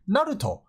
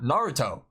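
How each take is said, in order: First: NARUTO with a quick tapped R and pure vowels; Japanese pronunciation. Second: NARUTO with an English R, ending in "toe"; American-style Naruto; English pronunciation. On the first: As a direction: say Naruto the Japanese way, "nah-roo-toh", R lightly tapped. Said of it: "It would be Naruto and not Naruto". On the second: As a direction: say Naruto the anglicised way, "NAR-uh-toe". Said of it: "and not Naruto". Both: Shown as a demonstration.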